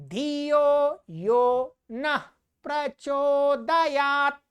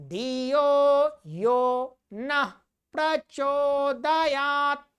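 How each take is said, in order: Both takes have the same delivery.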